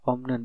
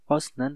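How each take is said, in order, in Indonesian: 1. Suku kata pertama diakhiri bunyi m. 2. Suku kata pertama diakhiri bunyi s. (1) "dibacanya dia omnen" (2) "atau osnen"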